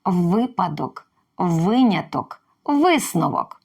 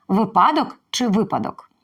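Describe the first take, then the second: First: «Випадок» повільно, з наголосом на перший склад; чітко вимовити «Випадок, виняток, висновок» з наголосом на ВИ; правильний наголос. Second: «випадок» двічі з різним наголосом: спершу на И, тоді на А; протиставити наголос у «випадок». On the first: (повільно, наголос на перший склад «Випадок») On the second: (два наголоси у слові «випадок») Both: Shown as a demonstration. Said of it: "Запам'ятовуємо".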